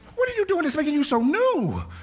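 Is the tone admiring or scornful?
admiring. It sounds admiring and amazed.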